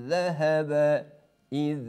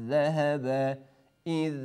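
No difference in how they are said.

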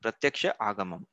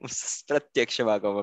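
First: The word is split into two separate parts. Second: The word runs together as one unbroken unit. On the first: "break it down" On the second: "The one which is a tongue twister"

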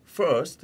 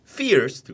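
First: It is said with a standard English pronunciation. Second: It is said with a Liverpool local pronunciation. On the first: This is the usual expected way. "first 이렇게 해야 되잖아요" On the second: This is how a local tour guide said it. "근데 first 그러는 거"

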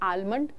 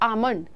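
First: The L sound is clearly pronounced. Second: The L sound is left out entirely. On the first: The speaker calls it wrong. "अब इसको हम गलत pronounce कैसे करते हैं" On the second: The speaker calls it right. "एल की sound आप skip कर जाओ"

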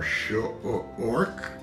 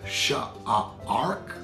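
First: The vowel sounds like 'or' as in corn. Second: The vowel sounds like 'ar' as in arm. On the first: "let's try the OR sound as well" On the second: "I'm pretty sure it's that AR sound"

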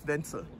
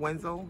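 First: The name is said with a German pronunciation. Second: The name is said with an English pronunciation. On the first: The speaker calls it right. "but it's German, it's Ventel" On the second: The speaker calls it wrong. "I think people would say Wenzel or Wenzel"

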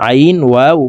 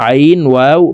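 The two takes are said the same way.

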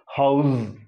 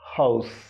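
First: The word ends with a voiced z sound. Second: The word ends with a voiceless s sound. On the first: The word is used as a verb. "if it is to be used as a verb, the final sound is as in zib" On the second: The word is used as a noun. "Suppose you are using it as a noun, you have to say house"

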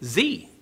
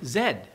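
First: The letter is named the American way. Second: The letter is named the Canadian way.

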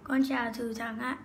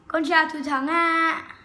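First: It is said at a normal, quieter volume. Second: It is said more loudly.

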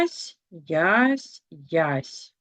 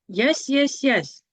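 First: The syllables are read at a slower pace. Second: The syllables are read at a fast pace.

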